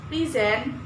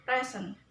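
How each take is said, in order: First: "present" as a verb, stress on the second syllable; pre-SENT, weak start and strong, rising end. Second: "Present" as a noun, stress on the first syllable; PRE-sent, first syllable strong, second weak. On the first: Teacher showing learners the verb, stressed on SENT in "present". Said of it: "you are talking about a verb". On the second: Teacher showing learners the noun, stressed on PRE in "Present". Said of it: "you are talking about a noun". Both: Shown as a demonstration.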